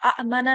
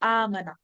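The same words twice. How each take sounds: First: The opening vowels are split by a glottal catch. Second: The opening is one smooth, lengthened vowel. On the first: The speaker calls it wrong. "আমানা না বলে" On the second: The speaker calls it right. "Smooth করে পড়ার জন্য, আরো মসৃণ করে পড়ার জন্য ... লম্বা করে"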